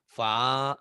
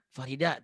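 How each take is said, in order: First: The name is split by pauses between syllables. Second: The name is said smoothly without pauses. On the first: The speaker calls it wrong. "Gak boleh" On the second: The speaker calls it right. "Kan gitu"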